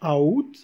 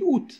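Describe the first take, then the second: First: The word is split into two syllables. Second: The word is said as one syllable. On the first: "au lieu de dire a out a out" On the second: "on dit out"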